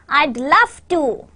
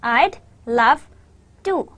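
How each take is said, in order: First: Slow phrase with "love" lifted, then falling; connected model phrase stressing "love". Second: "I'd", "love", "to" with a pause between each; slow dictation of "I'd love to"; word by word. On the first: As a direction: punch "love", light "to". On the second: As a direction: break it into separate words, "to" left on its own. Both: Shown as a demonstration. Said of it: "your stress is on love".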